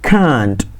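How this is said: It is said in a British accent. "British ಇಂಗ್ಲಿಷಲ್ಲಿ ಕ್ಯಾಂಟ್, pronunciation ಹೆಂಗೆ"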